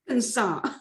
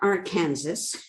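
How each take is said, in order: First: The word ends with a 'saw' sound. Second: The word ends with a 'sas' sound. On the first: The speaker calls it right. "you must pronounce the state name correctly" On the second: The speaker calls it wrong. "It's not Arkansas"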